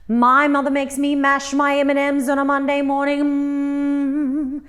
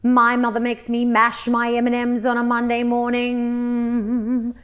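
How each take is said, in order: First: It is spoken louder and at a higher pitch. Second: It is spoken at a normal, speech-like pitch. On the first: "raise the pitch as though you have to speak louder and higher" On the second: "very smooth and flowing, just like speech"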